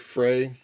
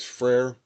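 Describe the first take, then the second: First: The name ends without any R sound. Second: The name ends with an audible R sound. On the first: The speaker calls it right. "it's technically Frey, uh, because the R is a romanticization" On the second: The speaker calls it wrong. "I do pronounce his name as Frere"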